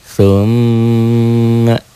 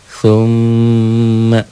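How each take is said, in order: The two takes are said the same way.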